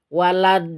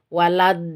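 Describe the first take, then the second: The two takes are said the same way.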